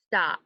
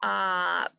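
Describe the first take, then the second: First: Said in the usual way. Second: "stop" split into st, o, p with gaps; sounded out. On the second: Shown as a demonstration. Teacher sounding out for pupils, segmented "stop". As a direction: draw out the vowel of "stop" between separate consonants. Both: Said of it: "Let's sound it out".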